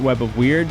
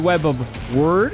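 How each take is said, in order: First: The last word sounds like 'weird'. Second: The last word sounds like 'word'. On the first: The speaker calls it wrong. "despite the fact that I said it that way the entire wheel spin" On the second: The speaker calls it right. "not Web of Weird"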